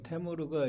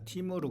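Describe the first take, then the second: First: The first vowel sounds like 'e'. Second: The first vowel sounds like 'i'. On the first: "이 테무르가 이걸 발음을 갖다" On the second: "티무르 그래요"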